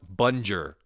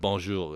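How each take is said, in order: First: The word is said with an anglicized English accent. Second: The word is said with a native French accent. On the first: An outsider wrongly corrects a native speaker. The speaker calls it wrong. "it's actually pronounced bunger" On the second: This is how native speakers say it. The speaker calls it right. "instead of bonjour"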